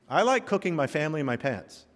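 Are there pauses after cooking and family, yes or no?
no. There are no pauses after cooking and family.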